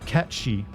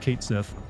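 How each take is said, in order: First: It sounds like 'cat-shee', with no final th. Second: It sounds like 'Kate Sith', ending in th. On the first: This is the supposedly official pronunciation. The speaker calls it wrong. "supposedly it's pronounced Katshi, but I think that's stupid" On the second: This is how the speaker has always said it. The speaker calls it right. "I've always pronounced it as Kate Sith"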